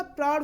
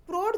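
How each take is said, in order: First: प्रौढ़ with open "au", as praurh; correct प्रौढ़. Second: प्रौढ़ with close "o", as prorh; mispronounced प्रौढ़. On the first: Teacher gives the right word, प्रौढ़ as praurh. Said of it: "प्रौढ़ होता है". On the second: Teacher rejects the wrong form, प्रौढ़ as prorh. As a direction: round the vowel of प्रौढ़ to o. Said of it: "जैसा शब्द नहीं होता". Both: Shown as a demonstration.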